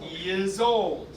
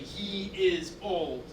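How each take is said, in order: First: The words run together with linking Y and Z sounds. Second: Each word is said separately, without linking sounds. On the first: The speaker calls it right. "they just put a Y in there. Then for some reason, the S turns into a Z" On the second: The speaker calls it wrong. "You can't really say"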